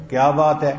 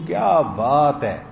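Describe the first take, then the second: First: Quick, louder, demonstrated annoyance; slightly angry. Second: Slow, drawn-out admiring praise; marvelling, slowly savoured compliment; admiring amazement. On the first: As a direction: say it short and loud, a bit cross. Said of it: "اور اگر ذرا غصے میں". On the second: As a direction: stretch it out in wonder and praise. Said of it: "اس کا مطلب میں تعجب میں، تعریف میں کہہ رہا ہوں". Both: Shown as a demonstration.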